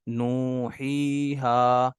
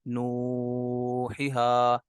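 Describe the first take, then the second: First: All three long vowels are held equally long. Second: Some vowels are held longer than others. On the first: The speaker calls it right. "तीनों को जो है वो बराबर लंबा करना है" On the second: The speaker calls it wrong. "किसी को ज़्यादा लंबा कर दिया किसी को कम कर दिया, नू ही हा ऐसे नहीं करना"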